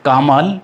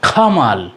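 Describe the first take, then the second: First: The first consonant has no puff of air. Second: The first consonant has a strong puff of air. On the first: The speaker calls it wrong. "আমরা এতদিন বলতাম কামাল" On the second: The speaker calls it right. "এখন বলবো খামাল"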